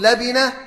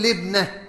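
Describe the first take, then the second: First: لبنة said "la-bi-nah", three syllables; labinah form. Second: لبنة said "lib-nah", two syllables; libnah form. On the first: Teacher summing up what you may say, لبنة as labinah. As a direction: say لبنة with a vowel after the ba. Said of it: "يجوز أن تقول". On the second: Teacher summing up what you may say, لبنة as libnah. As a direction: say لبنة with no vowel after the ba. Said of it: "ويجوز أن تقول". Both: Shown as a demonstration.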